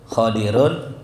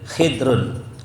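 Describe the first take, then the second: First: First vowel a, vowel i after the d. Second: First vowel i, no vowel after the d. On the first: "dibaca dengan fathah yang mu'jam" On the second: "Ma'a kasrul kha khidir"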